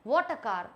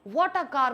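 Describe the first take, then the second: First: It sounds disgusted and dismayed. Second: It sounds admiring and amazed.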